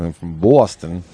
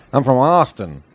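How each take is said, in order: First: Rounded Boston vowel on "Boston"; Boston accent. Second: "Austin" with an open ah, pitched up; open, higher first vowel on "Austin"; Austin pronunciation. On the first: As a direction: lower demo of a Boston accent. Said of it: "you said Boston, not Austin". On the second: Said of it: "people from Austin say". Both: Shown as a demonstration.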